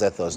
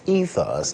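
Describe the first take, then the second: First: The first syllable sounds like the start of 'ethics'. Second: The first syllable differs from the start of 'ethics'. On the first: The speaker calls it wrong. "those of you who've been pronouncing it ethos, ethos, no" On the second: The speaker calls it right. "It's ethos"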